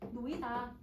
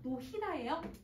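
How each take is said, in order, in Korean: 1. 가운데에 ㅎ 소리가 들리지 않아요. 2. 가운데에 ㅎ 소리가 들려요. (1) "이렇게 발음을 하죠"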